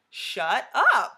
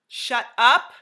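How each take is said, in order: First: It sounds like playful, amazed disbelief. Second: It sounds like a stern, angry command.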